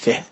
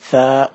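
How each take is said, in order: First: The name ends with a short clipped vowel. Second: The name ends with a long open vowel. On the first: The speaker calls it wrong. "مش ثه" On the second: The speaker calls it right. "اسمه ثاء ثاء مش ثه"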